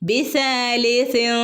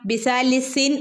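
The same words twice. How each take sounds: First: The final n is a hidden nasal sound. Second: The final n is a full tongue-contact sound. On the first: The speaker calls it right. "മൂക്കിൽ നിന്നൊരു ശബ്ദം ഇങ്ങനെ വരിക" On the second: The speaker calls it wrong. "എന്നവിടെ ഓതി കൊടുക്കരുത്"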